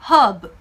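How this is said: The r in the middle is silent. "중간에 있는 이 R 발음이 나지 않습니다"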